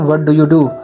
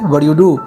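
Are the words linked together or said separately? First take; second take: separate; linked. First: Each word is said fully and separately. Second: The words are linked and reduced together. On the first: This is the traditional way of saying it. "Traditionally हम इसको ऐसे ही बोलते हैं" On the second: This is how Americans say it. "American specially ... वो इसको व्हाट यू डू बोलेंगे"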